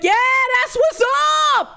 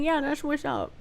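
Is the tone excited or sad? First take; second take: excited; sad. First: It is said in an excited, upbeat tone. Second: It is said in a sad, flat tone. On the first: The speaker calls it right. "You're supposed to be excited" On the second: The speaker calls it wrong. "But he said it so sad"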